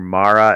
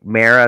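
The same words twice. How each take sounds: First: The name sounds like the end of tomorrow. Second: The name sounds like the end of Tamara. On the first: "Mara as in I'll see you tomorrow" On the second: "Like Mara as in like Tamara"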